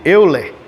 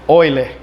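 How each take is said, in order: First: The vowels are read separately as spelled. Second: The vowels merge into an 'oy' sound. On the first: "Apesar de estar escrito Euler" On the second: "a pronúncia correta seria Euler"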